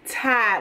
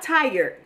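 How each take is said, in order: First: The R sound is dropped completely. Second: The R sound is clearly pronounced. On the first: Extreme exhaustion, beyond ordinary tiredness. "the R has left" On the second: Ordinary tiredness. "Not tired"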